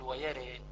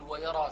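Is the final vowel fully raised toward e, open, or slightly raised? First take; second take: slightly raised; open. First: The final vowel is slightly raised toward e. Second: The r is heavy and the final vowel open. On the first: "إما أن أنوي ورش فأقلل أقول ويري" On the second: "وأخذت تفخيم الراء وعدم الإمالة"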